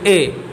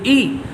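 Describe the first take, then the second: First: The vowel is an 'ay' sound, like 'e'. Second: The vowel is a clear long 'ee' sound. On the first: The speaker calls it wrong. "तो ये मजहूल हो जाएगा" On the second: The speaker calls it right. "तो ये मारूफ हो गया"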